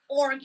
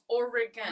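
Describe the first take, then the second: First: The word is said with fewer syllables. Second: The word is said with three syllables. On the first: The speaker calls it wrong. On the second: The speaker calls it right. "It's three syllables"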